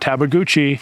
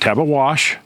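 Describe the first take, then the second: First: The name ends with a goochee sound. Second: The name ends with a wash sound. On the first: "the correct pronunciation is not Tabaguchi" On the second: "Not Tabawash, some people say that"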